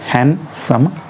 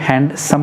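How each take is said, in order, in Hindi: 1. इस शब्द में d की ध्वनि छोड़ दी जाती है। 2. इस शब्द में d की ध्वनि बोली जाती है। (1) "यहाँ पर डी पूरी तरह से साइलेंट है" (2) "हैंडसम जब हम लोग बोलते हैं तो गलत बोलते हैं"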